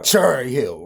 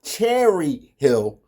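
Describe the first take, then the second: First: "Cherry" as CHUR-ee; Baltimore-style "Cherry Hill", CHUR at the front; Baltimore pronunciation. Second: "Cherry" slow, as CHAIR-ee; over-careful standard "Cherry Hill"; standard pronunciation. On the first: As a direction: say "Cherry Hill" lower, with an r-colored first vowel. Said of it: "That's how we say it in Baltimore". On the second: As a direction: spell out "Cherry Hill" very slowly with a clear e. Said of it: "not Cherry Hill". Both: Shown as a demonstration.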